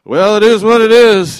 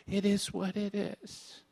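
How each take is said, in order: First: Loud, hammed-up shrug of "it is what it is"; mocking the phrase loudly; mock disciples. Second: Quiet, slow, disdainful mock of the phrase; a hushed sneer at a hated saying; scornful quote. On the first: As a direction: boom it out like a foolish disciple. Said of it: "the disciples looking at him going". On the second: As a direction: say "It is what it is" softly, dripping with contempt. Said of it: "I hate that sta".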